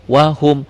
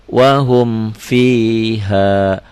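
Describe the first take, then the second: First: "Wahum" short and loud, mim released clearly; correct released mim. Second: "wahum fiha" very slow, mim held too long; held mim instead of released; wrong reading held. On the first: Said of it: "di sini dilepas". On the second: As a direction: demo of the mistake, stretching the mim in "wahum". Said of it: "Jadi jangan wahum fiha". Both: Shown as a demonstration.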